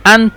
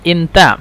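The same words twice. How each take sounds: First: أنت said "anta", opening on an a; Standard Arabic pronunciation. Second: أنت said "inta", opening on an i; Egyptian colloquial pronunciation. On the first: Teacher contrasting formal with colloquial, أنت as "anta". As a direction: open أنت with an "a" vowel, "an-ta". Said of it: "هنا لغة فصحى أنت". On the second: Teacher showing the colloquial form, أنت as "inta". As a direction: open أنت with an "i" vowel, "in-ta". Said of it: "وهنا لغة عامية أنت". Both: Shown as a demonstration.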